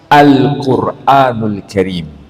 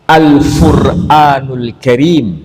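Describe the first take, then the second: First: The word begins with a deep q sound. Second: The word begins with an f sound. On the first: The speaker calls it right. "tapi dibaca" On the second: The speaker calls it wrong. "Ini bukan dibaca"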